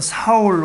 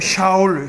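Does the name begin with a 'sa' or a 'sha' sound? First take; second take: sa; sha. First: The name begins with a plain 'sa' sound. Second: The name begins with a 'sha' sound. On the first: This is the usual Korean form of the name. "우리가 보통 사울 왕이라고 하는데" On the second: This is closer to the original language. "조금 원어에 가깝게 발음해 보자면"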